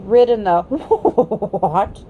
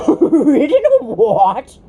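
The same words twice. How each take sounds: First: The words half-neighed like a horse; slow, horsey neigh through the words. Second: Slow, loud, scornful retort; slow, loud contemptuous horse voice; extreme contempt. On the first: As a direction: let a horse's whinny break through, very slow. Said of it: "it came out in sort of a neigh". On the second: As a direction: sneer the words out in disbelief. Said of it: "retorted the horse with extreme contempt". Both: A narrator's reading.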